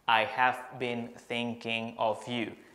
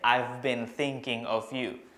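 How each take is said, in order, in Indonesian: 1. I have diucapkan sebagai dua kata penuh. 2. I have disingkat menjadi satu suku kata. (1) "instead of saying I have been" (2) "Kalau mau yang normal speed atau kecepatan normalnya, I've been"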